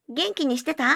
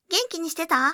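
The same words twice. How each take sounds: First: The voice comes from behind, at mid distance. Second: The voice comes from the left, at mid distance. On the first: "背面、中央マイクから約50 センチ離れた距離から。" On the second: "左耳、マイクから約50 センチ離れた距離から。"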